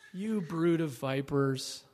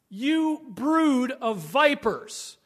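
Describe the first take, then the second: First: It is said in a gentle, sweet tone. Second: It is said in a strong, forceful tone.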